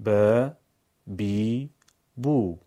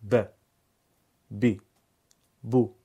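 First: ب بی بو each held long and louder; long vowels on ب. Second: ب بی بو each clipped short; short vowels on ب. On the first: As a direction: stretch ب, بی, بو. (ب بی بو با صدای کشیده) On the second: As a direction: say ب, بی, بو quickly. (ب بی بو با صدای کوتاه) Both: Shown as a demonstration. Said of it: "شش تا صدای کوتاه و کشیده".

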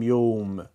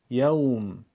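First: یوم as Persian "yowm", with a rounded o; Persian-accented mistake. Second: یوم with an open "yaw" diphthong, Arabic style; Arabic pronunciation. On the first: Teacher warns learners with the mistake: یوم as Persian "yowm". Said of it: "با لهجهٔ فارسی ادا نشه". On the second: Teacher models for learners: یوم as Arabic "yawm". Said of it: "با لهجهٔ عربی بگیم". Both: Shown as a demonstration.

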